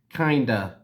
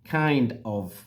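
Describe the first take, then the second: First: The words blend into one short word. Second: Both words are said fully and separately.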